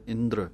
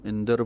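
First: ਇੰਦਰ said fast with the r slurred onto the d, no full vowel; quick r cluster. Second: ਇੰਦਰ with a full spelled-out ər at the end; the wrong way: ਇੰਦਰ as indər, full rara. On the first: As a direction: say ਇੰਦਰ as indrə, the rara quick and light. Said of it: "ਦੱਦੇ ਦੇ ਪੈਰ ਦੇ ਵਿੱਚ ਰਾਰਾ ਹੈ ਤੇ ਜਲਦੀ ਨਾਲ ਪੜ੍ਹਨਾ ਹੈ". (ਇੰਦਰ ਵਿੱਚ ਰਾਰਾ ਜਲਦੀ ਨਾਲ, ਪੂਰਾ ਨਹੀਂ) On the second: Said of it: "ਇਹਨੂੰ ਇੰਦਰ ਪੂਰਾ ਨਹੀਂ ਪੜ੍ਹ ਦੇਣਾ". (ਇੰਦਰ ਪੂਰੇ ਰਾਰੇ ਨਾਲ, ਗਲਤ ਉਚਾਰਨ) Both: Shown as a demonstration.

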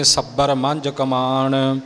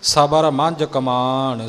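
First: ਸੱਬਰ with a hard doubled b, slowly; ਗਲਤ ਉਚਾਰਨ ਸੱਬਰ; wrong doubled b. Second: ਸਬਰ with a light single b, slowly; ਸਹੀ ਪੋਲਾ ਉਚਾਰਨ ਸਬਰ; soft b. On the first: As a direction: say ਸੱਬਰ with a doubled b, the common mistake. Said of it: "ਪਾਠੀ ਇਉਂ ਬੋਲਦੇ ਨੇ". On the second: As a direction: say ਸਬਰ softly, no doubled b. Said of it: "ਸਬਰ ਪੋਲਾ ਬੋਲਣਾ". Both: Shown as a demonstration.

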